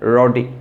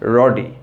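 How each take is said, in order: The two takes are said the same way.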